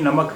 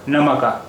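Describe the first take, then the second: First: The word ends on a bare k consonant. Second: The word ends with an added final a vowel. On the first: The speaker calls it right. "लेकिन ये नमक है" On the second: The speaker calls it wrong. "अगर इस पर भी ज़बर हो जा होता तो इस लफ्ज़ का उच्चारण ... होता नमका"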